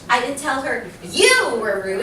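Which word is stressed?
you. The word you carries the stress. It was said about another person. "It could have been somebody else that I was talking about"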